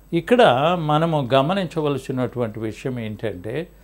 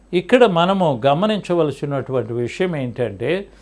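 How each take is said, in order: Both takes have the same delivery.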